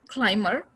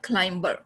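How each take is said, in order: First: The b sound is silent. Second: The b sound is pronounced. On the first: The speaker calls it right. "it's a climber" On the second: The speaker calls it wrong. "not climber"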